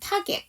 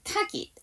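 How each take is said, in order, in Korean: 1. 마지막 음절은 'get'처럼 'eh' 모음이에요. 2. 마지막 음절은 'git'처럼 'ih' 모음이에요. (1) "일 번 target" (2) "이 번이에요. G-E-T에서 이 사운드는 에 발음이 아니라 이 발음입니다"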